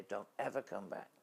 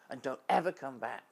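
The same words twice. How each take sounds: First: Said in the usual way. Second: Louder, higher furious order; angry shout. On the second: Retold or imitated. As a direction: bark the final warning loudly. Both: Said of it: "really furious and angry".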